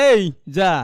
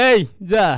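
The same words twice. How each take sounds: Both takes have the same delivery.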